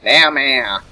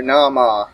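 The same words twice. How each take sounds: First: Nama said NAM-ma, flat a as in cat; other name pronunciation. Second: Nama said NAH-mah, both vowels broad as in father; correcting a name. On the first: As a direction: say Nama with short a vowels like cat. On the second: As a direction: say Nama with open ah sounds. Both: Shown as a demonstration. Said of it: "I said that with the wrong accent earlier".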